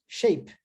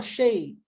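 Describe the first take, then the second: First: "Shape" in one short beat, p attached; one syllable. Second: "shape" broken as shay... p, detached p; wrongly split. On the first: Teacher shows correct form, "Shape" as a single syllable. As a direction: say "Shape" whole with no gap. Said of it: "Uma sílaba". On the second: Teacher shows what not to say, "shape" split in two. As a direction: stretch "shape" and release the p as another beat. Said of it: "Eu não posso falar". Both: Shown as a demonstration.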